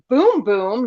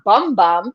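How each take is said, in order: First: The vowel sounds like 'oo' in boom. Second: The vowel sounds like 'u' in bum. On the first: The speaker calls it right. "apparently it's boom boom" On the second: The speaker calls it wrong. "not bum bum, I'm just mispronouncing it"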